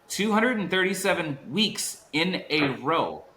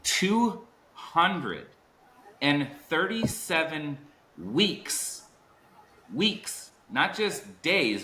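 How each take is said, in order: First: Two hundred and thirty-seven weeks in a row restated high, with the weight on hundred; punchy repeat. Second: Two hundred and thirty-seven weeks drawn out slowly and high, each word weighted; slow emphatic number. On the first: Host repeating the guest's record for the chat, punching it. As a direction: hit the number again at normal speed. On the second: Host hyping the guest's record to the audience, slow and emphatic. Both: Real, not acted. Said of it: "I wanna say this".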